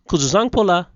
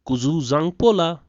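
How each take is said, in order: First: The word is said at normal speed. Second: The word is said slowly. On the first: "let's hear it at a normal pace" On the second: "One more time, slowly"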